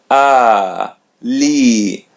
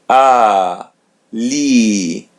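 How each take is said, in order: The two takes are said the same way.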